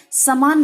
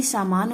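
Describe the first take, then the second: First: समान said "samaan", first A short; short first vowel. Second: सामान said "saamaan", first A long; long first vowel. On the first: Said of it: "नहीं सामान होता है". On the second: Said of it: "सामान होता है". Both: Shown as a demonstration.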